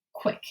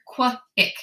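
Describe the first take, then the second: First: Said in the usual way. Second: "qua, ick" as two separate sound chunks. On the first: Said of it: "take those two parts". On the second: Shown as a demonstration. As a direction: say "qua", break, then "ick". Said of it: "that's gonna say qua".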